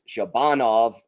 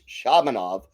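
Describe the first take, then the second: First: The stress is on the second syllable. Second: The stress is not on the second syllable. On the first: It is the typical Russian way to say the name. The speaker calls it wrong. "the typical Russian pronunciation, which is Shabanov, accent second syllable" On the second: It is how the player himself says the name. The speaker calls it right. "apparently told the broadcasters it's Shabanov"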